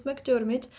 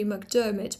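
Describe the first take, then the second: First: "McDermott" with the R sounded; Scottish R. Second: "McDermott" with the R silent; British non-rhotic. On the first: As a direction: pronounce the R in "McDermott". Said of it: "this is the Scottish pronunciation". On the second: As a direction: drop the R in "McDermott". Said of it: "The transcription would be British". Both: Shown as a demonstration.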